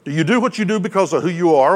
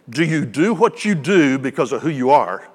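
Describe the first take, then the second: First: It is spoken at a normal, quicker pace. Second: It is spoken at a noticeably slower pace.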